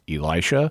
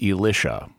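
First: It is the standard English pronunciation of the name. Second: It is the liturgical guide pronunciation of the name. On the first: The speaker calls it right. "the standard English pronunciation, which is Elisha" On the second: The speaker calls it wrong. "pronounce the perfectly normal name Elisha as Elisha, which is just wrong on so many levels"

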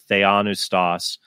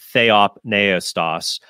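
First: No p sound is heard before the n. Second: A p sound is heard before the n. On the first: The speaker calls it wrong. "many other Protestants pronounce it theonustos. That's not actually the correct pronunciation" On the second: The speaker calls it right. "so people know why I pronounce it that way"

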